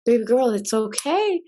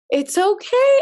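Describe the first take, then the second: First: Said in the usual way. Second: Higher, gentle cooing comfort; soothing grandfather. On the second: Retold or imitated. Grandfather soothing his crying granddaughter, high cooing voice.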